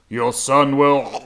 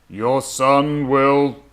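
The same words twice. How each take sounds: First: It is said with a gurgling voice. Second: It is said in a plain voice.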